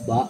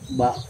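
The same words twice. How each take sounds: First: The vowel is cut short. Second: The vowel is held long. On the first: "Ba pendek" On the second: "ba panjang"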